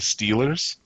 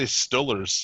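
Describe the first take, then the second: First: It is said the standard way. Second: It is said the local Pittsburgh way. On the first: This is how local fans do not say it. "They don't say Steelers" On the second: This is how local fans say it. "Pittsburgh fans, they say Stullers"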